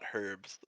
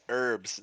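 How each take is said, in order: First: The word starts with an H sound. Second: The word starts without an H sound. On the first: The speaker calls it wrong. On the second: The speaker calls it right.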